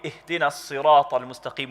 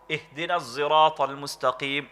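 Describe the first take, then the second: First: Sirat begins with an emphatic S sound. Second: Sirat begins with a Z-like sound. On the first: "with a sad" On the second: "they would pronounce it za"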